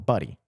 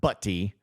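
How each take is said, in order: First: The middle consonant sounds like a soft d. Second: The middle consonant is a crisp t sound. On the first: The speaker calls it right. "It's more Buddy" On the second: The speaker calls it wrong. "Not Butty"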